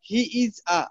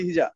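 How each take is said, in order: First: Each of the three words is said separately. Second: The three words run together into one word.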